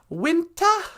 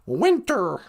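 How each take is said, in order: First: The final r sound is dropped. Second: The final r sound is clearly pronounced. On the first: "That's how they say in England" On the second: "up here it's oh"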